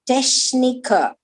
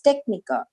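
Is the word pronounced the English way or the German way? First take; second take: German; English. First: It is pronounced with German sounds. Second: It is pronounced with English sounds. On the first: "Of Deutsch, it is Techniker" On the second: "In English, it's Techniker"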